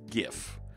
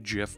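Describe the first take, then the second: First: The word starts with a hard g sound. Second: The word starts with a soft j sound. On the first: "it's graphics. Of course" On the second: "I like peanut butter"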